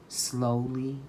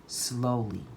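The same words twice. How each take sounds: The two takes are said the same way.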